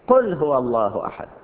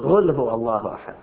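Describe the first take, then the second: First: The first word starts with a deep q sound. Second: The first word starts without a deep q sound. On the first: The speaker calls it right. "القراءة الصحيحة قل بالقاف" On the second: The speaker calls it wrong. "بعضهم يقول غل هو الله أحد، غل ليس بصار"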